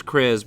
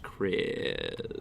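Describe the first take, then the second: First: Said in the usual way. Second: "Krez" slow, with the vowel stretched long; "Krez" said low and lingering; drawn-out pronunciation. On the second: Shown as a demonstration. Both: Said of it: "but it's pronounced Krez".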